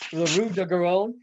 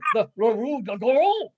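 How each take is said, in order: First: It is said with an American accent. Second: It is said with a nasal French accent. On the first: "he was asking like" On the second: "they have that nasal sound"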